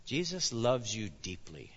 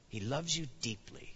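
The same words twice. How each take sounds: First: Said in the usual way. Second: Tender. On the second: Shown as a demonstration. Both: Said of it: "Believe it".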